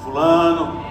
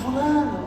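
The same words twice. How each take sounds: First: The name is called loudly. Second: The name is called very softly. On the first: The caller is insisting more strongly. "não é mais assim" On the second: The caller is gently trying to wake someone. "chamando bem baixinho"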